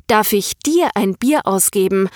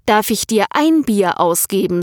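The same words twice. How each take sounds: First: Darf ich DIR ein Bier ausgeben, the stress on dir. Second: Darf ich dir EIN Bier ausgeben, the stress on ein. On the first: Rena quoting Per's wrong line, stress on dir. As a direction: lean on dir, not on ein. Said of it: "Und ich hab dich korrigiert". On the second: Rena giving the corrected line, stress on ein. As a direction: lean on ein, not on dir. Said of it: "du solltest ... sagen". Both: Shown as a demonstration.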